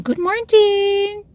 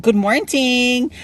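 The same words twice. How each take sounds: First: Very high, slow drawn-out good morning; cheery high-pitched hello; sing-song greeting. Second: High, slow drawn-out good morning; cheery drawn-out hello; sing-song greeting. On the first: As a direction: sing it out high to a passing coworker. Greeting passing coworker. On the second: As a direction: stretch it out brightly and high. Greeting viewers while driving. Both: Real, not acted.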